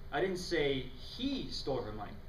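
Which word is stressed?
say. The emphasis falls on the word say.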